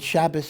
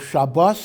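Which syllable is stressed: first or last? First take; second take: first; last. First: The stress is on the first syllable. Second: The stress is on the last syllable. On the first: This form is not acceptable in prayer. The speaker calls it wrong. "is not legitimate in, in davening" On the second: This form is acceptable in prayer. The speaker calls it right. "is perfectly fine"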